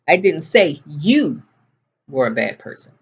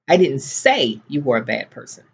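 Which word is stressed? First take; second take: you; say. First: The word 'you' carries the main stress. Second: The word 'say' carries the main stress. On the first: The speaker said it about someone else. "I said your brother was a bad person" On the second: The speaker thought it but did not say it. "but I was thinking it"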